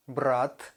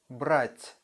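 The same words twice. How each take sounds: First: "Брат" with a plain hard final T. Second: "брать" with a soft, palatalized final T. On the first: Teacher repeats the contrast, hard T in "Брат". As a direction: end "Брат" without any softening. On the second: Teacher repeats the contrast, soft T in "брать". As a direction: let the T of "брать" soften. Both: Shown as a demonstration. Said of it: "soft and hard T sound".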